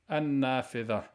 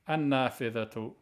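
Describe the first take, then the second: First: The word stops on a final 'h' sound. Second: The word ends with a full 'atu' ending. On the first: "If you don't pronounce it, ... You have to stop on a ha" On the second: "If you pronounce it"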